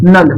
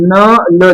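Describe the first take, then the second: First: Said in the usual way. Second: न ल said as two separate slow syllables; spelled out slowly. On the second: Shown as a demonstration. Teacher spelling out the word for students, slow and syllable by syllable. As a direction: break नल into न and ल, slowly. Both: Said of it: "न ल लिखना है".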